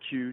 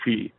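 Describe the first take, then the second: First: The word sounds like the letter Q. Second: The word sounds like 'she' or 'chee'. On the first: The speaker calls it wrong. "I think I'm saying that wrong" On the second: The speaker calls it right. "I think it's like she"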